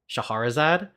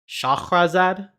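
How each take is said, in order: First: An extra vowel comes between the h and r. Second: No vowel comes between the h and r. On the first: The speaker calls it wrong. "I've always pronounced this Shaharazard" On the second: The speaker calls it right. "there's no A between the H and the R"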